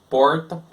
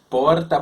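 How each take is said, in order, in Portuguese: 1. O R é curvado para trás, como no inglês americano. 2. O R é feito com uma batida da língua atrás dos dentes. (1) "pronuncia o R da seguinte forma ... Lembra até um pouco o R do americano" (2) "o R dental ... a língua vibra atrás do, do dente"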